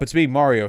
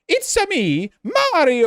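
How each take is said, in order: First: It is said in a plain American voice. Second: It is said in an exaggerated Italian Mario voice.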